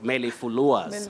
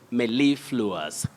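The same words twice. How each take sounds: First: The stress falls on another syllable. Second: The stress falls on the second syllable. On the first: The speaker calls it wrong. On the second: The speaker calls it right. "we have a primary stress on the second syllable"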